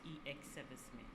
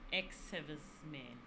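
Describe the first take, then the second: First: The first part is spelled out letter by letter. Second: The first part is said as one syllable. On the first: The speaker calls it wrong. "not E X servicemen" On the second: The speaker calls it right. "Words like ex servicemen"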